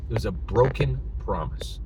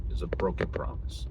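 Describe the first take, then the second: First: Said in the usual way. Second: "It was a broken promise" whispered, softer; whispered repeat. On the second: Real, not acted.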